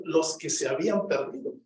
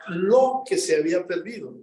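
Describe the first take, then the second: First: "los" marked out as the expected word; "los" set apart, then finish "que se habían perdido"; stress on LOS. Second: "lo" leaned on and held before the rest; "lo" singled out, then carry on to "perdido"; stress on LO. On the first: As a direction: lean on "los" to show the plural. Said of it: "Yo esperaba leer". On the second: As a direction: punch the word "lo". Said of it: "Yo esperaba leer los que". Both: Shown as a demonstration.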